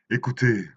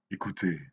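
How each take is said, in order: First: Louder, higher call to listeners; raised, declaimed summons. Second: Said in the usual way. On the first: Acted. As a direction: call them to attention, drawn out. Poem's opening call to listeners.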